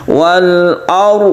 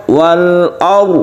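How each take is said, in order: No difference in how they are said.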